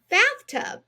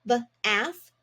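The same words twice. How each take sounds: First: "Bathtub" much higher and louder; cheerful reveal. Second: Said in the usual way. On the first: Shown as a demonstration. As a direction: sing out "Bathtub" as the big finish. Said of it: "We read it together". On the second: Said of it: "Here we go".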